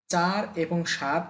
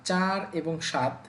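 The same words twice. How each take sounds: The two takes are said the same way.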